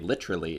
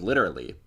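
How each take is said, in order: First: It is said in an English accent. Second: It is said in an American accent. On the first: "in England they say literally" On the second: "instead of literally"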